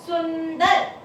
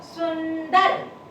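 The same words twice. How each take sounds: First: Said in the usual way. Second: सुंदर stretched slowly, nasal on सुं held; slow sounding out. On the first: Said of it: "आवाज कहाँ आई?". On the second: Shown as a demonstration. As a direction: draw out सुंदर so the nasal shows. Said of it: "सु के ऊपर".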